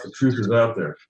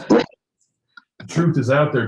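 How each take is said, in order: First: Said in the usual way. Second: Slow, hushed, mysterious agent line; a light take on the FBI agent, drawn out; Fox Mulder impression. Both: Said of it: "sounds an awful lot like Fox Mulder".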